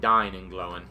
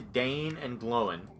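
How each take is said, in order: First: The first name has the vowel of 'die'. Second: The first name has the vowel of 'day'. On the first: The speaker calls it right. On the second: The speaker calls it wrong.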